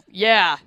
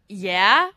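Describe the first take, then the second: First: The pitch falls at the end of the word. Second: The pitch rises at the end of the word. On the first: "it's always a" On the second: "With an upward inflection"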